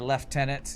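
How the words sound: It is said with an F sound, British style. "lieutenant has an F in Britain"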